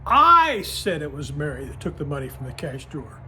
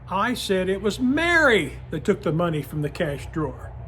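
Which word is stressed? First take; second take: I; Mary. First: The word "I" carries the main stress. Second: The word "Mary" carries the main stress. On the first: The focus is on who said it. "if I would stress the word I in that sentence" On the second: It was Mary who did it. "that stressed the Mary"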